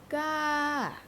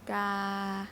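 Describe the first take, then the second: First: The pitch rises first and then falls. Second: The pitch stays level from start to end. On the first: "like when you go up the mountain and you and then you go down again" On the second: "I did not go up. Mm, I did not go down. So the sound is the same"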